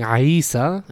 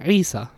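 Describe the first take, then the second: First: "Isa" opened with an "ah" before the long ee; wrong ayn vowel. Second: "Isa" with the ayn straight into a long ee; no "ah" in "Isa", just throaty "ee-sa"; correct ayn into ya. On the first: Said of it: "I'm not saying Isa". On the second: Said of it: "straight from the ayn into the ya". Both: Shown as a demonstration.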